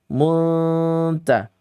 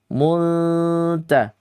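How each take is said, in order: No difference in how they are said.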